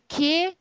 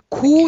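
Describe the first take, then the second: First: The vowel is an unrounded e sound. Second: The vowel is a rounded back oo sound. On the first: "только ни ке" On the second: "ни ку"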